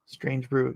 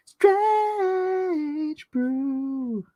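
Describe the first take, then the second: First: Said in the usual way. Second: Very high, stretched-out title call; playful high-pitched long cry; high drawn-out holler. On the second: Pretend. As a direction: stretch both words in a high wail.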